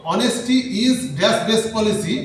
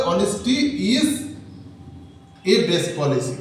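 First: Very slow, word-by-word reading; slow teacher's read-aloud; slow dictation. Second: Said in the usual way. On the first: Shown as a demonstration. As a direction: read the blank sentence slowly to the class. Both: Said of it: "তাহলে কি হবে?".

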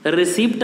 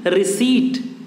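First: रिसिप्ट as "ri-SIPT"; wrong receipt, p sounded. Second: रिसीट as "ri-SEET", higher; correct receipt, silent p. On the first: Teacher warns against the mistake, रिसिप्ट as "ri-SIPT". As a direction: pronounce the p in रिसिप्ट. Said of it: "नहीं कहते हैं". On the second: Teacher gives the English for the Hindi, रिसीट as "ri-SEET". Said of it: "English में रिसीट". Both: Shown as a demonstration.

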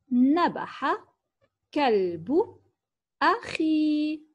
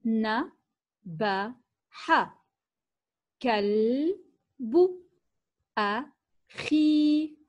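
First: Said in the usual way. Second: Very slow, each word نبح كلب أخي set apart with long pauses. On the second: Shown as a demonstration. Teacher reading to children, very slow and word by word. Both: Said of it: "لنقرأ معًا هذه الجمل".

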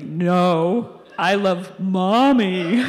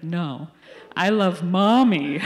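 First: Put-on toddler voice, louder and very slow; stubborn toddler repeating himself, louder and drawn out; toddler insisting. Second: Imitating the little boy, louder and slow, with a laugh; a laughing mock toddler insisting; lightly voiced toddler, slow and louder; three-year-old's retort. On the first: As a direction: draw it out like a stubborn three-year-old. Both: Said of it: "And he's like".

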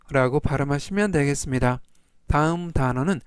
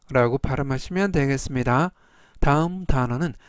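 No difference in how they are said.

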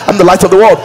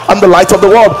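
No difference in how they are said.

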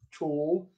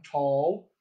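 First: TALL in British RP, close rounded 'aw' like 'tawl'; RP accent. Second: TALL in General American, opener, looser 'aw'; General American accent. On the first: Coach contrasting thought vowels, RP accent on TALL. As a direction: say TALL the RP way, lips tightly rounded. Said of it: "in the R P". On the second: Coach contrasting thought vowels, General American accent on TALL. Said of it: "versus the Gen M". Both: Shown as a demonstration.

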